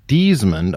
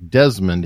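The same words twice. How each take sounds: First: It is said with a New Zealand accent. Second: It is said with the speaker's local accent.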